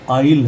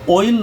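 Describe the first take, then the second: First: The vowel is an 'ah-ee' sound. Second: The vowel is an 'oy' sound. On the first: The speaker calls it right. "आइल है" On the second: The speaker calls it wrong. "अब यहाँ ऑयल नहीं है"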